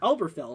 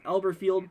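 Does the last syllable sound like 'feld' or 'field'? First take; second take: feld; field. First: The last syllable sounds like 'feld'. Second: The last syllable sounds like 'field'. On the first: "I think that's how you pronounce it there" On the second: "Elberfield or Feld"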